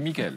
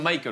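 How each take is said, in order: First: The name is said with a French pronunciation. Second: The name is said with an English pronunciation. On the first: The speaker calls it right. "on dit Michael" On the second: The speaker calls it wrong. "Il n'est pas américain. On dit pas"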